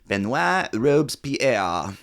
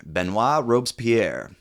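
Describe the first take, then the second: First: Very slow Benoit Robespierre with a rise at the end; French name, slower and rising. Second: Slow French Benoit Robespierre; French name said slowly. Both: Shown as a demonstration. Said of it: "we meet our main French character".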